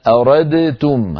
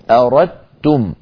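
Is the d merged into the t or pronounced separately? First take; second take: separate; merged. First: The d is pronounced clearly before the t. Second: The d is merged into the following t. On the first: The speaker calls it wrong. "ما يقول العرب أبدا أردتم هكذا بإظهار الدال" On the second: The speaker calls it right. "تدغم هذا النوع ... وإنما يقولون أردتم، وهو أسهل"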